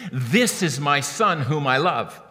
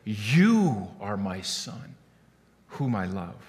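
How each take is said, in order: First: "This" weighted as a statement about the Son; "This is my Son" stressed on This. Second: "You" drawn out slow and low, spoken to the Son; "You" stressed, softer and slow as direct address. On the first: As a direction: lean on "This", announcing to onlookers. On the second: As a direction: linger on "You" intimately, very slowly. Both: Shown as a demonstration. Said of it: "Do you hear the difference?".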